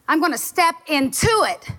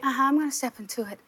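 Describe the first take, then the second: First: It sounds firm and fully determined. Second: It sounds half-hearted and unconvinced.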